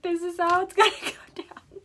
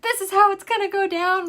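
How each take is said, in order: First: Higher mocking echo, laughing midway; laughing mimicry. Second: High, loud mock decree; husband's plan. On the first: Wife mocking her husband's plan, laughing echo. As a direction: parrot him back through laughter. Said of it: "I'm like". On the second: Husband laying out the snake plan, loud mock voice. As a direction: lay down the law like the husband. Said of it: "He's like".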